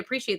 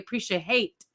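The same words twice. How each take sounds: First: A standard American accent, no 'hate' ending. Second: A Caribbean accent, ending sounding like 'hate'. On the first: "they don't say appreciate" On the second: "they say appreciate because it's how they pronounce the word"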